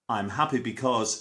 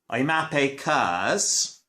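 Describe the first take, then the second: First: The last word is said in full. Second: The last word is shortened to one syllable.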